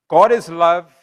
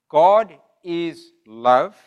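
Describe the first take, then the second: First: It is read at normal speed. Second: It is read slowly.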